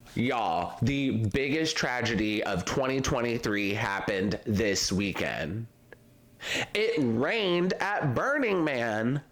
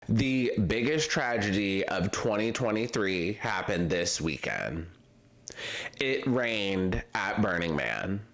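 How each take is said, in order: First: It is said with more feeling and energy. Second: It is said with calm, ordinary energy.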